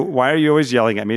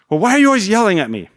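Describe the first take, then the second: First: Said in the usual way. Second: Higher, louder, fast, mock-whiny kid protest; a hammed-up son complaining. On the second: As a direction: play the wronged kid dodging his chore. Son deflecting a chore request.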